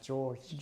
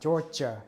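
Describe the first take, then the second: First: The word is said with one syllable. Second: The word is said with two syllables. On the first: The speaker calls it right. "nhưng mà George" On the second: The speaker calls it wrong. "mình không nói đọc là Georgia"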